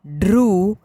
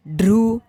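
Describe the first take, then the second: First: ढ्रू with a held oo; ढ्रू said as long "dhrooo"; long vowel. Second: ढ्रू with a short u; ढ्रू said as quick "dhru"; short vowel. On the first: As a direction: stretch the oo in ढ्रू. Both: Shown as a demonstration. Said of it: "बारह खड़ी के format में".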